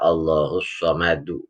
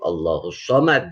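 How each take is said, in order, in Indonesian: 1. Konsonan terakhir diikuti vokal. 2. Konsonan terakhir berakhir dengan pantulan yang kuat. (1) "Kalau dibaca wasal lanjut" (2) "kalau dibaca waqaf Allahus Samad jadi qalqalah kubro"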